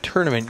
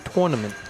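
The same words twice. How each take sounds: First: The first syllable sounds like 'turn'. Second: The first syllable sounds like 'tour'. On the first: "We all pronounce it T U R N" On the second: "You actually pronounce the U"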